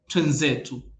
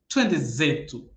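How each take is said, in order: First: The two words run together as twenzetu. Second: Every syllable of twende is pronounced in full.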